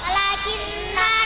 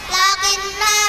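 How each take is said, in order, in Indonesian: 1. Vokalnya dibaca panjang. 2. Vokalnya dibaca pendek. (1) "tapi baca panjang" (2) "banyak baca pendek"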